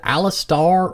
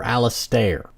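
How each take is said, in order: First: 'Alistar' slowly, ending like STAR; contrasting pronunciation. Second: 'Alistair' slowly, ending like AIR; contrasting pronunciation. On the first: Player asking which name is correct, careful pronunciation. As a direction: say 'Alistar' with an open AR at the end. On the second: Player offering the other way to say it, careful pronunciation. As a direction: rhyme the end of 'Alistair' with stair. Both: Shown as a demonstration. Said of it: "I've seen it pronounced both ways".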